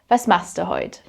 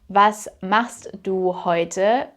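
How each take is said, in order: First: Heute drops its final e sound. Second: Heute keeps its final e sound.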